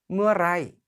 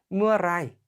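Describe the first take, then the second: No difference in how they are said.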